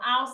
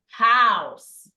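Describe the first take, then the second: First: The word starts without an h sound. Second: The word starts with a clear h sound. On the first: The speaker calls it wrong. "some remove the H ... So house is not correct" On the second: The speaker calls it right. "It is house"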